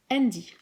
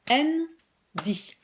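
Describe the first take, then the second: First: Said in the usual way. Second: Andy split into two beats, An-dy, pitch up; syllables clapped out. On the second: Shown as a demonstration. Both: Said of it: "on va couper le mot".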